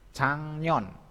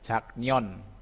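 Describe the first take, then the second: First: An ng sound comes before the n. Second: A k sound comes before the n. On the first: "Bacanya cangnion" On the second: "Ini ya, jaknion"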